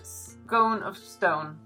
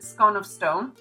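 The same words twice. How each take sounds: First: Scone has the same vowel as stone. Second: Scone has a short vowel, unlike stone. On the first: The speaker calls it right. "you should say it scone of stone, because then it's the own and own" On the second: The speaker calls it wrong. "now I pronounce it"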